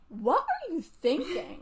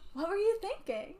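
First: It sounds scornful and disbelieving. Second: It sounds sweet and admiring.

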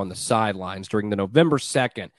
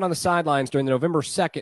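First: It is read in a lively, dramatic voice. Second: It is read in a flat, monotone voice. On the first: The speaker calls it right. "I'm going to do this as a dramatic reading" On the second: The speaker calls it wrong. "just read it monotone like I was"

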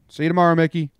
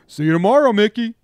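First: It is said in a plain, neutral tone. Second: It is said in a snarky, mocking tone.

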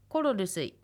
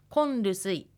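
First: The full 'koro' is kept before 'rusuy'. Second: The 'ro' changes to 'n' before 'rusuy'.

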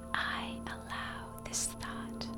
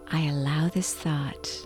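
First: It is whispered without a voiced tone. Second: It is said in an ordinary speaking voice. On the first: "whisper the affirmation" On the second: "in your normal speaking voice"

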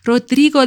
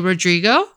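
First: The name is said in a Mexican Spanish accent. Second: The name is said in an American English accent. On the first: "Did I say that with a proper accent? / That was very Mexican" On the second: "as the Americans would say"

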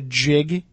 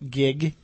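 First: The word begins with a soft G sound. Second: The word begins with a hard G sound.

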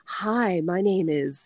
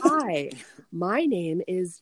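First: The phrase is spoken at a normal pace. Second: The phrase is spoken somewhat slowly.

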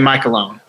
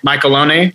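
First: The name is pronounced an Americanized way. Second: The name is pronounced the Italian way. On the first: This is the later adapted form. "And then it eventually became Michelone" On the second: This is the original family form. "They are originally from Italy, so it probably was at one point Michelone"

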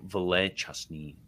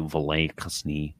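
First: The second word begins with a 'ch' sound. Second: The second word begins with a 'k' sound. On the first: "the C in Kopo is actually a cha" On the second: "Kasni sounds more Eastern to me"

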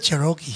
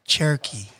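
First: It is said with a Filipino accent. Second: It is said with an American English accent. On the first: This is how it is said in the Philippines. "Sa Pilipinas" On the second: This is how it is said here. "di ba dito"

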